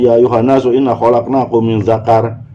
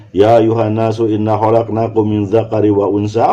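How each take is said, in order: First: Recitation cut off after "dzakar"; wrong stop at dzakar. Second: "min dzakari wa unsa" recited without a break; phrase kept joined. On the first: Teacher showing a forbidden reading, stopping at "dzakar". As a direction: end the phrase on "dzakar" as if complete. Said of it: "nggak bisa kita misalkan". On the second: Teacher reciting a verse correctly, "dzakari wa unsa" linked. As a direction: run straight through "dzakari" into "wa unsa". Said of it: "konstruksi min dzakarin wa unsa ini harus lekat". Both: Shown as a demonstration.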